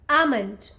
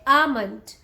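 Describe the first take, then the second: First: The L sound is silent. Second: The same.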